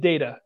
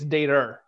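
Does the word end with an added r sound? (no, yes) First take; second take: no; yes. First: The word ends without an r sound. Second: The word ends with an added r sound. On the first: "It's data" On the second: "If you're from Maine, it's data. They add an R"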